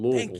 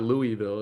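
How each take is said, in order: First: The word is slurred and mumbled, syllables run together. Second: The word is said clearly with every syllable. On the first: The speaker calls it right. "you got peanut butter on the roof of your mouth" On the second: The speaker calls it wrong. "It's not Louisville"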